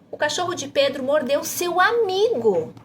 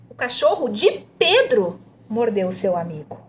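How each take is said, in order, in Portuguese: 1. A ênfase cai em "amigo". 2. A ênfase cai em "Pedro". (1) "para você enfatizar seu amigo" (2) "pede para enfatizar de Pedro"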